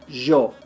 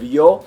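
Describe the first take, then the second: First: It starts with an Argentine-Uruguayan zh sound. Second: It starts with an English y sound.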